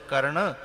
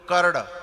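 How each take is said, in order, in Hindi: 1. अंतिम व्यंजन नाक वाला है, नाक से निकलता है। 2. अंतिम व्यंजन d जैसा है, इसमें नाक का स्वर नहीं है। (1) "नाक के स्वर से, और शुद्ध है कर्ण" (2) "अब इसमें नाक का स्वर नहीं आया"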